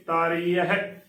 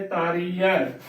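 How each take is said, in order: First: ਤਾਰੀ ਹੈ with a clear h before the last vowel; careful ਤਾਰੀ ਹੈ, every syllable sounded; correct, h sounded. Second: ਤਾਰੀ ਹੈ run together as taaree-ai; demonstrated mistake, ਤਾਰੀ ਹੈ without its h; wrong, h dropped. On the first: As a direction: say ਤਾਰੀ ਹੈ as taaree-a-he. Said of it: "ਇਸ ਦਾ ਸ਼ੁੱਧ ਉਚਾਰਨ ਹੈ". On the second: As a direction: say ਤਾਰੀ ਹੈ with no h sound. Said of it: "ਤਾਰੀ ਹੈ ਗਲਤ ਉਚਾਰਨ ਹੈ". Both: Shown as a demonstration.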